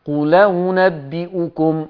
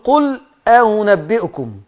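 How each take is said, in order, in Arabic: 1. تُحذف الهمزة، وتنتقل حركتها إلى qul. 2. تُنطق الهمزة بعد qul منفصلة. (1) "الهمزة الأولانية المفتوحة دي هتتنقل حركتها للام" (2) "أنت مش هتقول قل أنبئكم"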